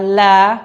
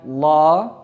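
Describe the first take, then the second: First: The syllable is pronounced thin with an open a. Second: The syllable is pronounced thick with a rounded vowel. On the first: The speaker calls it right. "dibaca la" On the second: The speaker calls it wrong. "bukan lo"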